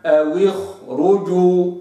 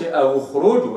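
First: أو اخرجوا slow, the waw given a clear thin kasra; correct demo. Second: أو اخرجوا with the waw's kasra dropped; wrong reading. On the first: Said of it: "وإنما". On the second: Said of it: "ما قلش". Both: Shown as a demonstration.

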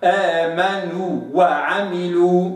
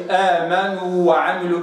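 First: آمنوا وعملوا slow, the long waw kept apart from the following waw; correct demo. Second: آمنوا وعملوا with the two waws merged into one; wrong reading. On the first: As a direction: separate the waws in آمنوا وعملوا clearly. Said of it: "وإنما". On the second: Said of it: "ما أقولش". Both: Shown as a demonstration.

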